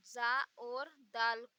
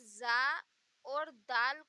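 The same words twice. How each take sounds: The two takes are said the same way.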